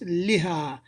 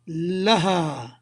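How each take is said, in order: First: The first vowel is i, as in li. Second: The first vowel is a, as in la. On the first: The speaker calls it wrong. "not liha" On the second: The speaker calls it right. "you will say la. Laha"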